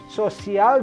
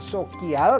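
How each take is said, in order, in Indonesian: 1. Konsonan pertama adalah bunyi S lembut. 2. Konsonan pertama adalah bunyi K keras. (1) "C ketemu I itu masuknya lembut" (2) "bukan sokial"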